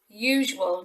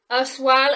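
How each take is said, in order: First: The word begins with a 'yoo' sound. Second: The word begins with a different vowel sound. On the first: The speaker calls it right. "It's actually a U sound" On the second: The speaker calls it wrong. "not usual or usual"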